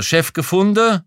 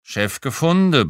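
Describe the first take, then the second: First: 'Chef gefunden?' high and loud, rising at the end; loud, high-pitched query on 'Chef gefunden?'; questioning. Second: 'Chef gefunden' echoed as a statement, falling at the end; firm echo of 'Chef gefunden', no question in it; confirming. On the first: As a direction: ask 'Chef gefunden?' with a big upward swing on 'gefunden'. Clerk asks, narrator echoes it. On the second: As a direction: confirm 'Chef gefunden', letting 'gefunden' drop. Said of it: "bestätigte ich". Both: A narrator's reading.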